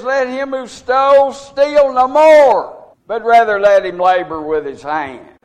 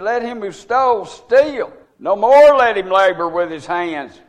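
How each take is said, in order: First: The pause comes right after 'no more'. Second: The pause comes right after 'steal'.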